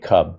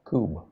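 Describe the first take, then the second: First: The vowel is short, as in cub. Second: The vowel is a long oo, as in tube. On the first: The speaker calls it wrong. "I'm calling it Cub" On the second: The speaker calls it right. "It's cube, like tube"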